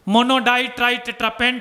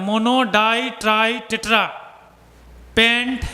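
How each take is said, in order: First: The words are run together quickly. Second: The words are spoken slowly and separately.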